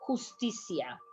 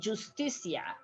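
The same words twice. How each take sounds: First: It starts with a breathy H sound. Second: It starts with an English J sound. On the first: The speaker calls it right. "because it's ha ha ha" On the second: The speaker calls it wrong. "you don't say Justicia"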